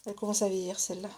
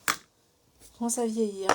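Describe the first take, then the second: First: Fast, throwaway remark; quick aside. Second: Slow, drawn-out repetition; slow deliberate restatement; slow emphatic repeat. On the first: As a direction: toss it off quickly. Remark on her old pliers. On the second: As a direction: lean on each word to drive it home. Repeats the remark slowly. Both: Real, not acted.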